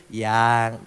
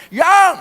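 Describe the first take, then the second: First: Soft, lower loving "Yang."; tender yang. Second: High, loud barked "Yang."; harsh yang. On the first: Preacher shows how a husband should call his wife, tenderly. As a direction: say "Yang." gently, full of affection. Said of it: "Intonasinya itu na-, penuh nada kasih". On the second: Preacher shows how not to call your wife, sharp loud bark. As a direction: snap "Yang." like an order, not with love. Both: Shown as a demonstration.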